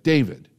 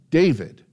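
First: A mild stern name call, a touch louder; lightly imitating a stern mentor. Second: Firm, a bit louder, calling his name sternly; a serious mentor's name call. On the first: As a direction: firmly say the name as a rebuke. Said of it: "just like I said it". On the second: Retold or imitated. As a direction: say the name like a stern mentor about to make a point. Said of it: "he said it, like, sternly".

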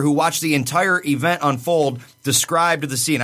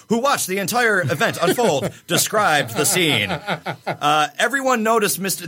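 First: Said in the usual way. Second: News anchor voice. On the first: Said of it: "I feel like you have to say that like a, like a news anchor". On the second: Shown as a demonstration. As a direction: read it like the evening news. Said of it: "like a news anchor".

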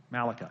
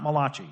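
First: Said in the usual way. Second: Malachi said as "ma-LAH-chee", like an Italian surname; Italian-style mispronunciation. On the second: Shown as a demonstration. Teacher jokes that he's not from Italy, Malachi mispronounced "ma-LAH-chee". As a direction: say Malachi with a "ch" as in cheese and end on "ee". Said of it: "He's not from Italy".

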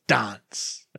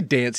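First: Dance drawn out slow and low; odd pronunciation. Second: Said in the usual way. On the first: Retold or imitated. Host imitating the coach's odd word, slow low dance. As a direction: stretch dance out slowly and lower. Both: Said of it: "And he even says it like that".

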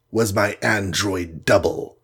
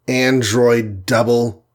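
First: Said in the usual way. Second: Slow disbelieving repeat of "Android double?"; echoed in surprise. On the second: Acted. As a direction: echo "Android double?" slowly as a question. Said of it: "echoed Iron Man".

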